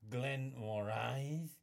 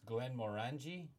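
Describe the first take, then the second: First: It is said with a French-sounding accent. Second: It is said with a plain English accent.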